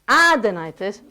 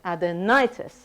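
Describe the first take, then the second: First: The stress falls away from the 'ni' syllable. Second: The stress falls on the 'ni' syllable. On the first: The speaker calls it wrong. "So it's not adenitis" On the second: The speaker calls it right. "So the stress is on the ni"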